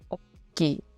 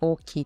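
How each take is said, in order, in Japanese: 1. 短い「つ」が入ると、単語が跳ねるように聞こえる。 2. 単語は引っかかりなく滑らかに流れる。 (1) "間に小さい「つ」を入れて、なんか跳ねてるみたいな、スタッカートみたいな感じで" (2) "普通に大きい"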